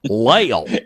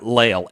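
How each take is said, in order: First: The name is said in a put-on, drawling accent. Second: The name is said in a plain, ordinary accent.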